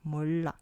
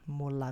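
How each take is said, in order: First: A held double l sound joins the two syllables. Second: A single quick l sound joins the two syllables. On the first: The speaker calls it right. "É 몰라, 몰라" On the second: The speaker calls it wrong. "não é direto molá, molá, veja que é diferente"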